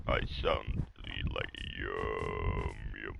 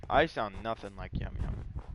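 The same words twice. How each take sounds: First: Very low, slow, drawn-out voice; put-on deep voice. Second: Said in the usual way. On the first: Shown as a demonstration. Gamer demonstrating the voice that freaks out kids, put-on deep voice. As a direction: drop way down deep and stretch the words. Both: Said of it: "Like that. If I talk like that".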